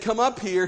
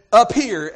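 First: Said in the usual way. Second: "up" punched louder in "up here"; stress on UP. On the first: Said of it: "he thought me-, he meant". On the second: Retold or imitated. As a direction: hit "up" hard, as a literal direction. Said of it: "as in on the platform".

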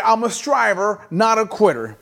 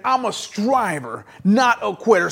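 First: Said in the usual way. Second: Like you mean it. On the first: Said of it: "Okay, say it like you mean it". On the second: Shown as a demonstration. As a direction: say it with conviction, drawing out STRIVER. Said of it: "like you mean it".

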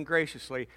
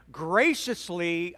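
First: Said in the usual way. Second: "graciously" drawn out slowly, syllable by syllable; emphasis on graciously. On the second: Shown as a demonstration. Preacher coaching the congregation on tone, "graciously" slow and emphatic. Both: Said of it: "I'm emphasizing graciously".

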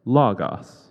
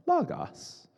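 First: Very loud robotic voice; computer-generated voice. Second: Very high-pitched parroting voice; Brian. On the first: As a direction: boom it out like a computer over loudspeakers. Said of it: "the computer-generated voice again go". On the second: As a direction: squeak it back, imitating an eager student. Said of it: "And Brian said". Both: Retold or imitated.

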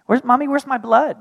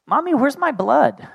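First: Put-on much higher, innocent toddler voice again; little child. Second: Put-on much higher, innocent toddler voice; little child. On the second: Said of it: "And he's like". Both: Son asking mommy about his blood, small child voice. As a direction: ask it like a puzzled three-year-old.

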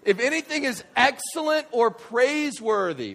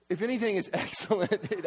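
First: Loud, raised preaching voice; high, ringing-out verse reading; emphatic proclamation. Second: Lightly laughing verse reading; amused reading. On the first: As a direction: proclaim the verse with full force. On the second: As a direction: read the verse through a laugh. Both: Real, not acted.

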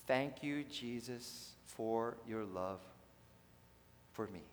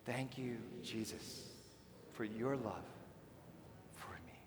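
First: Plain. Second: Softer, almost whispered prayer; hushed prayer. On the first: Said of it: "repeat after me". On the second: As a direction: breathe it as a private prayer. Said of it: "Here we go". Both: Shown as a demonstration.

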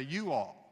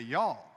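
First: You all said as two separate words; mocking Northerner saying you all in two words. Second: Y'all said as one syllable, yawl; drawled Southern y'all, one syllable. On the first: A Northerner mocking Southerners, a careful two-word you all. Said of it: "try to make fun of somebody from the South". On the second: A Southern speaker teaching the congregation, a one-syllable y'all. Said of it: "If you're in the South, you say". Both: Shown as a demonstration.

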